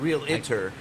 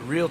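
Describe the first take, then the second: First: The word is said with three syllables. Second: The word is said with two syllables. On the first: The speaker calls it wrong. "Not, not real iter" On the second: The speaker calls it right.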